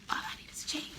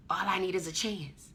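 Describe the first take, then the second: First: High, breathy-free whisper of a dream; wishful whisper. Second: Said in the usual way. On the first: Retold or imitated. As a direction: whisper the wish much higher. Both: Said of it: "it would be like".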